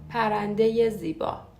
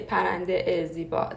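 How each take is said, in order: First: A ye sound links the two words. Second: A bare vowel links the two words. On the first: The speaker calls it right. "turns to ye, because it's hard to pronounce A after a vowel sound" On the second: The speaker calls it wrong. "We don't say پرنده زیبا. That's that's hard to pronounce"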